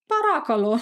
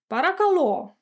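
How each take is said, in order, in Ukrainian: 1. Наголос на другому складі. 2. Наголос на останньому складі. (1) "на другий склад" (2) "Наголос на останній"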